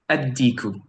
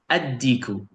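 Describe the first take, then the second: First: The L is dropped and the D is doubled. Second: The same.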